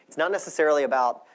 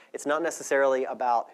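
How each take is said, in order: Both takes have the same delivery.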